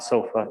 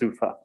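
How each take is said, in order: First: The first syllable sounds like 'so'. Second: The first syllable sounds like 'sue'. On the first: The speaker calls it wrong. "It's not SOFA" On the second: The speaker calls it right. "it's SUFA"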